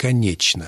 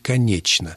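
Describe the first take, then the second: First: The consonant before 'n' sounds like 'ch'. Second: The consonant before 'n' sounds like 'ch'.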